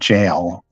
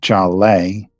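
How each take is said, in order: First: It is said as one syllable, like jail. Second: It ends with a long eh sound. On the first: "so it's not jail" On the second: "it's not a long eh sound at the end"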